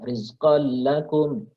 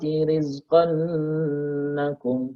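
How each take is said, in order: First: It passes straight to lam with no hum. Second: The nasal hum is held before lam. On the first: The speaker calls it right. "Jadi nggak boleh ditahan kolnya. Ya, langsung" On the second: The speaker calls it wrong. "Jadi nggak boleh didengungkan. ... itu salah"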